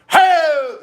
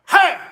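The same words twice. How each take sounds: First: The yell is slow and drawn out. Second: The yell is loud, short and sharp.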